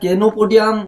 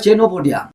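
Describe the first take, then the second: First: The word begins with a hard K sound. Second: The word begins with a CH sound. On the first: The speaker calls it wrong. "এটা কেনোপোডিয়াম নয়" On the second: The speaker calls it right. "আমার ধারণা এটা হবে চেনোপোডিয়াম"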